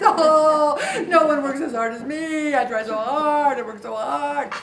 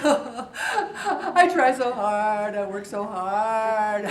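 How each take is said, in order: First: Louder, quicker poor-me complaint; a mock martyr's loud protest; self-pity whine. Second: Slow, drawn-out poor-me whining; milk it like a sulking martyr; self-pity whine. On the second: Retold or imitated. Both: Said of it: "I have a pity party".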